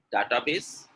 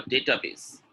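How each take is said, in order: First: DATABASE starting with "dah-tah"; wrong pronunciation. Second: DATABASE starting with "day-tah"; correct pronunciation. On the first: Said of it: "a lot of people saying". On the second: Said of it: "The correct pronunciation is". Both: Shown as a demonstration.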